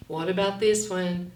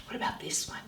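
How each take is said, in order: First: Said in the usual way. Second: Unvoiced, hushed query to the kids; whispered question. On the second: Shown as a demonstration. Teacher whispering a question to young readers. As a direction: whisper it like a little secret.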